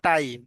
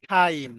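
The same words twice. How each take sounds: First: "টাইম" with a hard T and no puff of air; everyday unaspirated T. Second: "টাইম" with a breath puff on the opening T, like "thaim"; aspirated T. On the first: Teacher quotes what learners usually say, unaspirated T in "টাইম". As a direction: say "টাইম" the common Bengali way, plain "taim". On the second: Teacher models the word for the class, aspirated T in "টাইম". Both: Shown as a demonstration. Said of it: "আপনারা যেটাকে বলেন টাইম".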